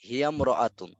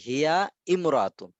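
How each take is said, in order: First: The two words run together without a stop. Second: A glottal stop separates the two words. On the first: The speaker calls it right. "তাহলে হবে হিয়ামরাতুন" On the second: The speaker calls it wrong. "আমরা বলি না"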